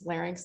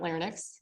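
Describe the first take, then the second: First: The word is said in its standard form. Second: The word is said with its sounds altered. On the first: The speaker calls it right. "there is a proper way to say it" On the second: The speaker calls it wrong. "not larynx. I don't even know what the larynx is"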